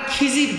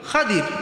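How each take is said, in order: First: The name is said as Khizir, with a z. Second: The name is said as Khadir, with a d. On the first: The speaker calls it wrong. "আমরা খিজির বলি, এটা প্রসিদ্ধ ভুল।" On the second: The speaker calls it right. "আসল উচ্চারণ হবে কি? খাদির।"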